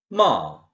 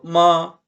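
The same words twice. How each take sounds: First: The pitch falls sharply from high. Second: The pitch stays high and level. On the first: It means to scold. "높은 음정에서 확 떨어져요" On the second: It means mother. "높은 톤으로 마 이거는 엄마라는 뜻"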